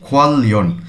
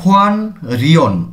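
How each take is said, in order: First: The syllables are joined with a double l sound. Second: The syllables are joined with an n sound. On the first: The speaker calls it right. "আমি বলছি খোয়াল লিয়ন" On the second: The speaker calls it wrong. "এভাবে বলিনি"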